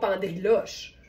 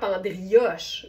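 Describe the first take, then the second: First: The L sound is pronounced. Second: The L sound is not pronounced. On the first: The speaker calls it wrong. "mais on dit pas pendriloche" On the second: The speaker calls it right. "on le prononce pas les L, c'est vraiment pendrioche"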